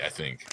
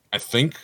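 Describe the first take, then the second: First: Said in the usual way. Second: "I think" higher, rising at the end; doubtful repeat. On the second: Real, not acted. Second-guessing who owns the chip brand, doubtful. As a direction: lift THINK as if unsure.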